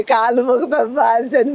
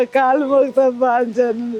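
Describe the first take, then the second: First: Said in the usual way. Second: Slow, tearful begging with a sob; crying plea. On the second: Real, not acted. Home guard begging the chief minister for her job, crying. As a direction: plead through real tears.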